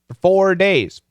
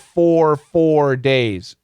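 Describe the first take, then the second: First: The first word is reduced to 'fur'. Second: The first word has a full 'or' vowel. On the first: The speaker calls it right. "as a preposition, make it fur, fur" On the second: The speaker calls it wrong. "But does he say for four days? No, he doesn't"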